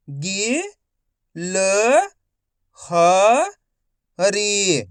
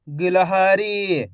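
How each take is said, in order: First: गि, ल, ह, री as separate sounds; long pause after each of गि, ल, ह, री; syllable by syllable. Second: गिलहरी joined up and slow; गिलहरी in one slow, unbroken piece; blended whole word. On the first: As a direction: sound out गिलहरी one syllable at a time. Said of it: "एक अक्षर का उच्चारण करके". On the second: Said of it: "तो मिलके बन जाएगा". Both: Shown as a demonstration.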